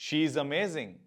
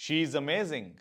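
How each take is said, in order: Both takes have the same delivery.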